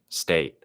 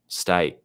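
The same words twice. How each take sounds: First: The vowel is said in a non-Australian accent. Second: The vowel is said in an Australian accent. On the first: "For me, it's more like a, a, state" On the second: "in an Australian accent, face might be like I, I, state"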